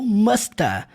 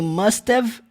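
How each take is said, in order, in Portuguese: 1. Termina com som de uh, sem v. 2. Termina com um som curto de v. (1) "ou musta" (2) "Só com o somzinho do V. Aqui também must have"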